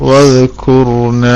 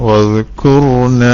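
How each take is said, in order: The two takes are said the same way.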